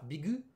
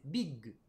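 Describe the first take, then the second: First: Bigu said with a full u vowel at the end, no pause; bigu, ending on a voiced u; wrong version. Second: Big with a short stop held before the g, as Japanese bikku; big with a small pause before the final g; right version. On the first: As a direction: bigu with an added u syllable. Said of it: "C'est pas bigu, c'est big". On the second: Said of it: "on a une petite pause". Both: Shown as a demonstration.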